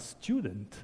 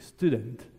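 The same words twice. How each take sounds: First: The word is pronounced in an English way. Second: The word is pronounced in a Dutch way. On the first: The word is taken to come from English. The speaker calls it wrong. "Ce n'est pas student" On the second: The word comes from Dutch. The speaker calls it right. "c'est la prononciation néerlandophone"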